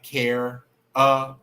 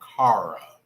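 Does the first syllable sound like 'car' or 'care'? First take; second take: care; car. First: The first syllable sounds like 'care'. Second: The first syllable sounds like 'car'.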